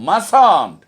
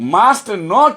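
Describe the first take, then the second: First: The words merge into one contracted word. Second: Both words are said fully and separately. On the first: The speaker calls it right. "কথা বলার সময় ইংরেজিতে আমরা বলবো মাসান্ট" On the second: The speaker calls it wrong. "কখনোই মাস্ট নট বলবো না"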